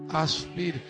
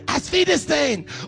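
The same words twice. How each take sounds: First: It is said plainly, without a put-on accent. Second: It is said in a put-on German accent. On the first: "Just Asfidesen" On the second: "we're going to say it with an accent, like we're the cute little German boy"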